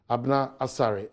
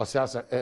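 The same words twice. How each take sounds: First: Asare named as Abna Asare, first word misread; slow, stumbling misreading of Abna Asare; name mispronounced as Abna Asare; wrong name. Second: Osei Asare said carefully after correction; careful, corrected Osei Asare; name repeated right as Osei Asare. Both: Real, not acted.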